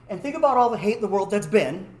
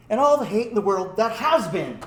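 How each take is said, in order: First: Said in the usual way. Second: HAS punched out separately before "been"; "has" given full emphatic weight; stress on HAS. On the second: Retold or imitated. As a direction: hit the word "has" hard. Repeats with full verb emphasized.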